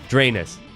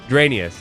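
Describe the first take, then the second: First: The name begins with the sound of 'drain'. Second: The name rhymes with the word Gradius. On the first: The speaker calls it wrong. "I'm not going to go an entire video calling this game Drainus" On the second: The speaker calls it right. "Like Gradius, Dranius"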